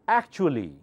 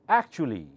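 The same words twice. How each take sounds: Both takes have the same delivery.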